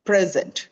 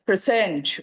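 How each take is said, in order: First: The stress is on the first syllable. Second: The stress is on the second syllable. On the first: It is a noun meaning being here. "ആദ്യത്തെ പ്രസന്റിന് present എന്ന് പറയുമ്പോൾ first സിലബിളിൽ" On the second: It is a verb meaning to show or introduce. "Present എന്ന വേർബിന് second സിലബിളിലാണ് വരുന്നത്"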